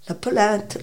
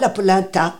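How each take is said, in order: First: The final vowel is swallowed and unstressed. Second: The final syllable is stressed and fully pronounced. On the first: The speaker calls it right. "C'est la polenta. Le A est tellement avalé" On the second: The speaker calls it wrong. "Le Français vous dira"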